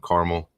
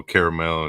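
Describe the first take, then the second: First: "caramel" said KAR-mul; two-syllable caramel. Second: "caramel" said KAIR-uh-mel; three-syllable caramel. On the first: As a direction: drop the middle vowel of "caramel". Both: Shown as a demonstration. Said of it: "It's just like, you know".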